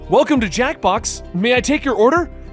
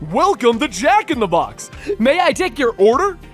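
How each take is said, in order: First: It is said quickly in a normal voice. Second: It is said in an over-the-top clown voice.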